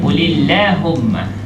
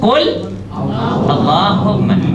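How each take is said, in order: First: The words are joined and Allah's L is light. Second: The words are separated and Allah's L is heavy. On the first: "Kenapa pula nipis pula Allah tu? Baris bawah sebelum Allah" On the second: "itu tebal kalau sebelum dia baris atas"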